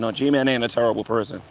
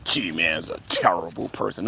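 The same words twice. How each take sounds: First: Said in the usual way. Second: Low, soft put-on voice; mock accusation. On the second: Streamer parrots critics' charge against G-Man, mocking. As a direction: intone it low and hushed, mockingly.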